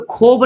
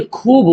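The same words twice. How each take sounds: First: खूब said as "khob", with a round "o"; wrong reading. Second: खूब with a long "oo", "khoob"; drawn-out vowel. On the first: Teacher showing how not to read it, खूब as "khob". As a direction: turn the vowel of खूब into "o". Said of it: "यहाँ पे खूब नहीं". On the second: Teacher correcting the reading, खूब with long "oo". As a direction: stretch the "oo" in खूब. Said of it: "वाव को खींच के पढ़". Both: Shown as a demonstration.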